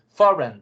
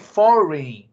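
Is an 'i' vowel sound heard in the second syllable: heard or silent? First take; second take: silent; heard. First: No 'i' vowel is sounded in the second syllable. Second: An 'i' vowel is sounded in the second syllable. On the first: The speaker calls it right. "Don't pronounce the I here" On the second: The speaker calls it wrong. "Many people tend to say foreign, pronounce the I"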